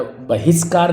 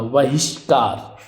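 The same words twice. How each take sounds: First: बहिष्कार said "bahiskar" with plain s; mistaken s sound. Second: बहिष्कार slowly as "vahishkaar"; correct sh sound. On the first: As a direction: say बहिष्कार with s instead of sh. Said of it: "बहिष्कार नहीं होता". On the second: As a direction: draw out बहिष्कार with a clear sh. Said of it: "षटकोण वाला सा आधा". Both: Shown as a demonstration.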